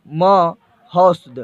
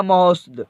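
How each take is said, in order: First: महोस्द drawn out slowly, syllable by syllable; slow syllable demo. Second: Said in the usual way. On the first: Shown as a demonstration. Teacher to students, sounding out महोस्द very slowly. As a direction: spell out महोस्द slowly for the class. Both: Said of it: "ऐसे रहेगा महोस्द".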